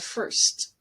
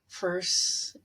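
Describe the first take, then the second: First: The final consonant sound is clearly pronounced. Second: The final consonant sound is left off. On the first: The speaker calls it right. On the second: The speaker calls it wrong.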